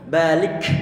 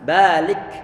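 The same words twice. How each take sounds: First: The final k releases a strong, forceful burst. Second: The final k releases a light puff of breath. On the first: The speaker calls it wrong. "jangan sampai kenceng-kenceng" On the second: The speaker calls it right. "kita berikan ha hams"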